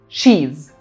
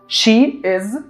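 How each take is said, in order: First: Merged into one short syllable, she's. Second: Two separate words, she and is.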